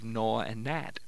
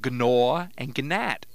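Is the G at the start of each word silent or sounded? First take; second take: silent; sounded. First: The G is silent before the n. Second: The G is sounded before the n. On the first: This is how the words are said today. "instead of" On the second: This is how the words were said centuries ago. "The G was pronounced in"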